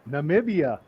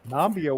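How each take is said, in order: First: The name is said with three syllables. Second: The name is said with two syllables. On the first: The speaker calls it right. "Neil must mean Namibia" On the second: The speaker calls it wrong. "he was pronouncing it Nambia"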